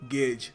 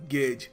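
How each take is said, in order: The two takes are said the same way.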